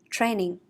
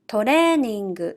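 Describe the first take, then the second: First: It is said with English pronunciation. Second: It is said with Japanese katakana pronunciation. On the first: "meaning training" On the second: "I will read in Japanese first"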